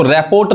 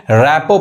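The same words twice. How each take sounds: First: रिपोर्ट said "rap-port", final rt sounded; wrong pronunciation. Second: रैपो said "rap-po", open ending; silent R and T. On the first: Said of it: "इसको रिपोर्ट नहीं कहेंगे". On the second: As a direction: end रैपो on the o, no r or t. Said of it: "रैपो पढ़ते हैं". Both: Shown as a demonstration.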